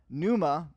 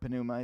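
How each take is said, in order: First: The word starts without a P sound. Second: The word starts with a sounded P.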